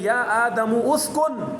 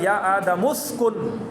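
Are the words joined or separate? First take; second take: separate; joined. First: The two words are said separately with a vowel. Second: The two words run together without a break. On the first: The speaker calls it wrong. "यहाँ पे भी हम ऐसे नहीं पढ़ेंगे" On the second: The speaker calls it right. "Quran में तो यूँ ही होता है डायरेक्ट"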